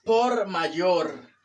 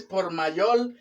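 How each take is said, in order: First: "por mayor" slowly, with R closing both words; "por mayor" drawn out, R not L; correct R. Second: "por mayor" said as "pol mayol"; "por mayor" mispronounced with L for each R; learner's L for R. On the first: Shown as a demonstration. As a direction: stretch out "por mayor", each R clear. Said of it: "es por mayor". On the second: Retold or imitated. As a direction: imitate the mistake, "por mayor" with L endings. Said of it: "No es por mayor".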